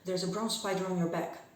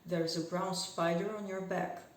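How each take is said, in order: First: The sentence is spoken very fast throughout. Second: The sentence is spoken fast throughout.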